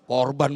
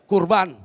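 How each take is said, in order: First: The first vowel sounds like 'o'. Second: The first vowel sounds like 'u'. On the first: The speaker calls it wrong. "Ini lidah lidah rada kampungan sih" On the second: The speaker calls it right. "Kurban maksudnya"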